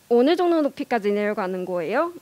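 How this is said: Pitch falls steadily, then rises at the end. "서울 사람들은 말을 할 때 앞에서부터 쭉 내려가다가 마지막에 올리지만"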